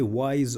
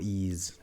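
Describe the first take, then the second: First: The name is said like the word 'wise'. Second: The name is said like the word 'ease'. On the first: "are they wise or ease?" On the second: "are they wise or ease?"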